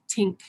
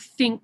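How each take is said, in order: First: The word begins with a hard t sound. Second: The word begins with a soft th sound.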